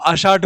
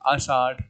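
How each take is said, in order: First: It ends with a plain retroflex dh stop. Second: It ends with a flapped retroflex rh sound. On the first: This is the formal classical form. "वो परिष्कृत और शास्त्रीय जो classical जो आषाढ़ है" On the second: This is the everyday colloquial form. "ढ के नीचे बिंदी आ गई, आषाढ़ हो गया, ये तद्भव हो गया"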